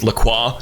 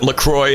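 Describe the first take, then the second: First: The name is pronounced in a French way. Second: The name is pronounced in an English way. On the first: "it's pronounced LaCroix, because it's like French" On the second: "I used to pronounce it LaCroix"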